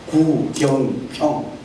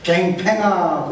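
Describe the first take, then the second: First: The name has the standard 'yeo' vowels. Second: The name has flattened Gyeongsang 'ae' vowels. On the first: The speaker calls it right. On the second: The speaker calls it wrong. "경상도 사람들은 구경평 할 줄 몰라요. 갱팽아 그러죠"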